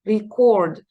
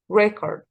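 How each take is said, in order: First: The stress is on the second syllable. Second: The stress is on the first syllable. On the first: It is the verb, to record. "When you say a verb, you say record" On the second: It is the noun, a recording. "When you say a noun, you say record"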